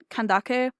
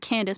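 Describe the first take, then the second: First: The name ends with a k sound. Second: The name ends with an s sound. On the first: This is the intended original name. The speaker calls it right. "I think it's meant to be pronounced uh Kan- Kandake" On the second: This is how the game says it. The speaker calls it wrong. "it's pronounced in the game Candace"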